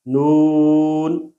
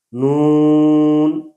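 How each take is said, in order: First: Said in the usual way. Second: نون held long with the oo in the nose; nasalized vowel. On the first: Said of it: "ایک دفعہ صحیح پڑھیں گے". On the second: Shown as a demonstration. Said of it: "ایک دفعہ غلط پڑھیں گے".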